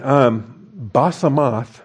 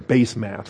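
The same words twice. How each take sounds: First: The first syllable does not sound like base. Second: The first syllable sounds like the word base.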